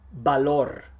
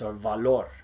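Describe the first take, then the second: First: The word starts with a B sound. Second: The word starts with a buzzing V sound. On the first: The speaker calls it right. "you should say B" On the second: The speaker calls it wrong. "Don't say"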